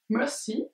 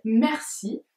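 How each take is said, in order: First: Put-on "Merci" as "Mehsi" in a light English accent with no r; soft, playful English-accent "Merci". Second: Said in the usual way. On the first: Imagining the English saying "Merci" with an English accent. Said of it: "l'accent anglais". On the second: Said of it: "J'imagine avec l'anglais, l'accent anglais".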